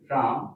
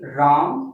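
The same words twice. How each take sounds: First: The word is said softly. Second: The word is said somewhat louder. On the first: The sound travels only a short distance. "मेरा आयम क्या हुआ? कम हो।" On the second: The sound travels a bit farther. "मेरा vibration थोड़ा इतना दूर तक गया।"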